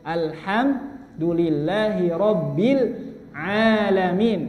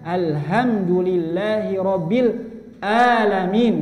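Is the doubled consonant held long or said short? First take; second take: held long; short. First: The doubled consonant is held long. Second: The doubled consonant is said short. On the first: The speaker calls it right. "surah Al-Fatihah itu" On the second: The speaker calls it wrong. "Ieu malah dibaca"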